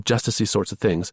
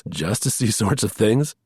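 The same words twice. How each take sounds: First: Said in the usual way. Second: Slow, amused mock repeat of justicey; drawn-out teasing echo, questioning rise on things. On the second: A narrator's reading. Charlie mocking Lamb's word, slow and amused. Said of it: "hugged himself with laughter".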